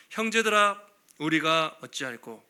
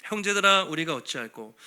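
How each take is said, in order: First: Slow, heavy cry of a guilt-stricken crowd; a people cut to the heart asking what to do; anguished lament. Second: 크게 부르고 낮게 무너지는 탄식; deep lament. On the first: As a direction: plead with slow dragging despair. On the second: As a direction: cry out, then collapse into despair. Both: Acted. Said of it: "엄청난 탄식".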